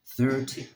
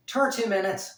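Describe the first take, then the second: First: Said in the usual way. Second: Put-on loud, high Irish accent, THIRTY said like "tarty". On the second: Vlogger playfully checking his time, in an Irish voice. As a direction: put on a big Irish lilt. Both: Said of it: "I love doing the Irish voice".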